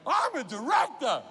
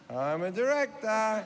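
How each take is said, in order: First: It is said loudly, with great passion. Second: It is said plainly, without much passion.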